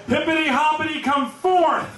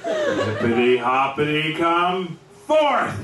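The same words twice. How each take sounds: First: Passionate calling out. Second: Tearful, slower pleading call; tearful plea. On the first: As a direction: cry out to raise the frog from the dead. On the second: Daughter begging the dead frog to rise, tearful plea. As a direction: plead through welling tears. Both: Retold or imitated. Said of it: "Really giving it her all, passionate".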